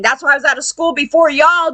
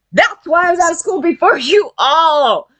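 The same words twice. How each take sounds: First: Said in the usual way. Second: "you all" stretched out, higher; emphatic repeat. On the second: Real, not acted.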